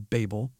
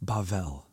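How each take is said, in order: First: The name is said in a familiar English way. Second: The name is said in a Hebrew way. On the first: "you've probably heard it called" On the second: "I'm going to use the Hebrew pronunciation"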